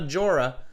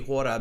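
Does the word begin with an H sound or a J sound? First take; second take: J sound; H sound. First: The word begins with an English J sound. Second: The word begins with a breathy H sound. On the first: The speaker calls it wrong. "I know that the J is not a J. It's definitely not Jora" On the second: The speaker calls it right. "the J, of course, in Spanish is pronounced uh, H sound"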